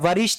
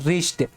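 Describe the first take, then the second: First: A w sound is heard at the start. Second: No w sound is heard at the start. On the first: The speaker calls it wrong. "वरिष्ठ नहीं" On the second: The speaker calls it right. "इसको पढ़ते हैं रिस्ट"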